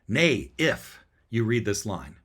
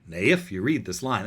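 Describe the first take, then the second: First: Both Nay and if are stressed. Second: It keeps an even alternating rhythm.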